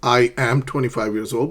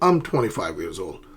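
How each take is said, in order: First: I and am are said as two separate words. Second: I and am are joined into one syllable. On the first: "Notice the difference" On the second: "they join I and am"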